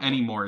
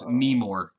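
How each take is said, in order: First: The word starts with a vowel, as usual. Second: The word starts with an N sound. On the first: This is the normal way to say the word. "it's not anymore" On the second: The misspelled word is read exactly as written. "it's Nemore"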